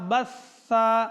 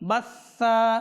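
Both takes have the same delivery.

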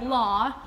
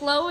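First: The vowel sounds like the one in 'saw'. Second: The vowel sounds like the one in 'so'. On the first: "Well, Law" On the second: "I pronounce it Low"

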